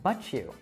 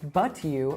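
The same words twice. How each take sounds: First: The t and y blend into ch. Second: The t and y stay separate and clear.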